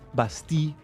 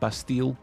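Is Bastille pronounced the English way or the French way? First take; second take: French; English. First: The word is pronounced the French way. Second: The word is pronounced the English way. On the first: "as in the French" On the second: "not Bastille"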